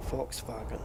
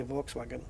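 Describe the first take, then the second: First: "Volkswagen" as folks-vahgen; German "Volkswagen", F and V; German pronunciation. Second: "Volkswagen" as vokes-wagen, V and W; plain English "Volkswagen"; English pronunciation. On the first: Teaching viewers the German "Volkswagen". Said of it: "that's the correct pronunciation". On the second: Admitting to viewers his English "Volkswagen". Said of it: "I always say". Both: Shown as a demonstration.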